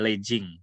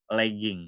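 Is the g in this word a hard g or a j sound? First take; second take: j sound; hard g. First: The g is said as a j sound. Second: The g is said as a hard g. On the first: The speaker calls it wrong. "nggak ada legging" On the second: The speaker calls it right. "tidak dibaca J tapi G"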